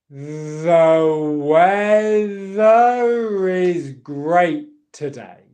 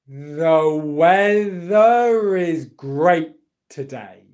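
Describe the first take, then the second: First: The sentence is said very slowly. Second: The sentence is said at a normal pace. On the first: "Super slowly" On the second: "I'm doing this with connected speech"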